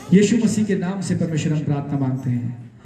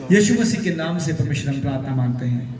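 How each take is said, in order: No difference in how they are said.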